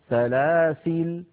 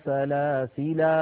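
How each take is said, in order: First: The word ends on a silent l consonant. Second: The word ends with a long a vowel. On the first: "كالوصل كما وصلها من بحذف اللام" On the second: "بإثبات الألف اتباعا للرسم"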